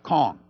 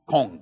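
First: The name is said in a standard accent. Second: The name is said in an island accent. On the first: The speaker calls it wrong. "not Kong" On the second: The speaker calls it right. "That's the way you say it in the islands"

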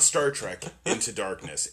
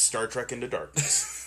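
First: There is a pause after 'Trek', like a colon. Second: It runs straight on with no pause after 'Trek'. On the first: The title is read as having a colon. The speaker calls it wrong. "It's not" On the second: The title is read as one phrase without a colon. The speaker calls it right. "They didn't want to put the colon"

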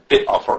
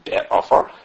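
First: The prefix is said without a segol vowel. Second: The prefix is said with a segol vowel. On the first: The speaker calls it wrong. "as opposed to bit offer" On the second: The speaker calls it right. "The last word is pronounced be'afar"

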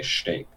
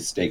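First: The st sound has the Philadelphian changed quality. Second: The st sound is said the usual plain way. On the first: The speaker calls it wrong. "I wouldn't say steak" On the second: The speaker calls it right. "I would say steak"

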